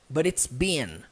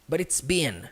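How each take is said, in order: Both takes have the same delivery.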